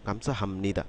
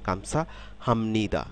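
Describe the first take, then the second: First: "গামসা হামনিদা" said compactly in one go; connected "গামসা হামনিদা" with m before n; syllables run together. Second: Slow model "গামসা হামনিদা", m gliding into n; unhurried "গামসা হামনিদা" for learners; joined-up pronunciation. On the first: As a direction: say "গামসা হামনিদা" smoothly, falling away at the end. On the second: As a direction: say "গামসা হামনিদা" carefully as a linked phrase. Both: Shown as a demonstration. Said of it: "একসাথে উচ্চারণ করব".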